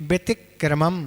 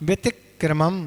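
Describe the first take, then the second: The two takes are said the same way.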